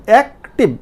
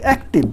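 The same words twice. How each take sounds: First: active broken into two beats, অ্যাক and টিভ; split in two. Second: Said in the usual way. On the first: Shown as a demonstration. Teacher showing two syllables, active split in two. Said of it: "দুইটা হয়ে গেল". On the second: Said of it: "একবারে কি আপনি উচ্চারণ করতে পারছেন".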